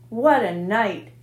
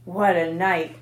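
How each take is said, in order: First: Slow, worn-out rasp after a feast; hoarse and slow. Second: Said in the usual way. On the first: A narrator's reading. Rat to friends after feasting, hoarse and slow. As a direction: drag it out hoarsely, overfed. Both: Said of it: "he repeated hoarsely".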